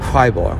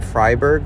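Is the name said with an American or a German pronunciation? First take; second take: German; American. First: The name is said with a German pronunciation. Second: The name is said with an American pronunciation. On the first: The speaker calls it right. "in German, you'd probably say Freiburg" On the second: The speaker calls it wrong. "it's a very Americanized pronunciation"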